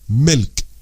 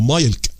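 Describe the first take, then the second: First: The vowel is a short i sound. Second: The vowel is a long ai sound. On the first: The speaker calls it right. "شورت قصير" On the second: The speaker calls it wrong. "او مايلك لا لا"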